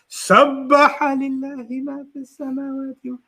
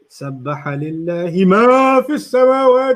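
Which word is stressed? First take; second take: سَبَّحَ; مَا. First: The stress falls on the first word, sabbaha. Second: The stress falls on the word ma. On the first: "What did they stress? ... سَبَّحَ" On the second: "They're stressing the ma"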